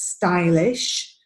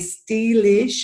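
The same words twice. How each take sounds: First: The stressed vowel sounds like 'eye'. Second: The stressed vowel sounds like 'ee'. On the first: The speaker calls it right. "the pronunciation here is stylish" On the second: The speaker calls it wrong. "a tendency to pronounce this as E"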